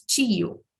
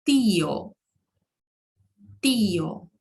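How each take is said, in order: First: Portuguese tio said as chio; Brazilian Portuguese tio. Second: Tio with a clean hard T, never CH; Spanish tio with plain T. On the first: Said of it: "nós falamos tio". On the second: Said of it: "em espanhol, nós falamos". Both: Shown as a demonstration.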